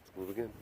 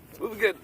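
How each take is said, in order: First: Soft mumbled version; under-the-breath take; quiet first try. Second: Hosting retake; higher, brighter retake. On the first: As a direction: murmur it almost to yourself. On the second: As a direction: lift the line up and push it out. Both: Shown as a demonstration. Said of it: "repeats the line".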